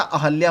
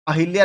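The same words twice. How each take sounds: First: अहल्या said with a short a after ह, ə-ɦə-lja; correct form. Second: अहिल्या said with a clear i after ह, ə-ɦɪ-lja; wrong form. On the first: Teacher giving students the right form: अहल्या with short a. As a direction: say अहल्या as the correct version, no i sound. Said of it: "अहल्या होता है". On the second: Teacher showing students the wrong form: अहिल्या with i. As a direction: say अहिल्या as the mistaken version, with the i sound. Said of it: "अहिल्या नहीं होता". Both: Shown as a demonstration.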